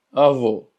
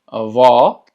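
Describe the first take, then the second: First: Avó said with a closed final o; closed avô. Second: Avó with open, loud final o. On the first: Teacher models grandfather, avó with closed o. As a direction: round and close the last vowel of avó. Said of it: "que la pronunciación sea cerrada". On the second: Teacher models grandmother, open avó. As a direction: open the stressed ó of avó wide. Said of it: "el cual es abierto". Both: Shown as a demonstration.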